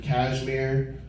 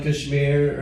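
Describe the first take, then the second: First: "Kashmir" as CAZH-meer, flat a first; Americanized pronunciation. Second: "Kashmir" as kush-MEER, short first vowel; native pronunciation. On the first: Comic repeating it for American listeners, "Kashmir" Americanized, CAZH-meer. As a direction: say "Kashmir" like cashmere. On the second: Comic giving another example, "Kashmir" the native way, kush-MEER. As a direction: say "Kashmir" with a light uh, then MEER. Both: Shown as a demonstration. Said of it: "It goes across the board".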